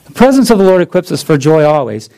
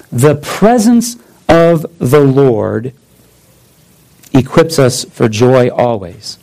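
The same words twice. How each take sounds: First: Fast, run-together restatement of the point; quick recap. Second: Slow solemn reading. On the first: Preacher rattling off his main point fast. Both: Shown as a demonstration. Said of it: "let me do it this way".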